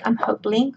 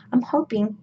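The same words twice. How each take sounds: First: Hoping with an extra L, like "hopling"; tongue-tripped hoping. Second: Said in the usual way. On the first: Real, not acted. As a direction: slip an L into hoping. Repeats own slip before correcting it.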